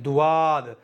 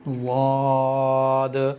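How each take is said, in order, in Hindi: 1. यह ड और एक अतिरिक्त 'u' स्वर से शुरू होता है। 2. यह एक ही भारी व्यंजन से शुरू होता है। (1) "ये दोनों ही गलत हैं" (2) "यह है इसकी सही अदायगी"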